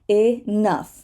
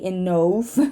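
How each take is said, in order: First: The o is not pronounced separately. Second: The o is pronounced as a separate vowel. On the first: The speaker calls it right. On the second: The speaker calls it wrong.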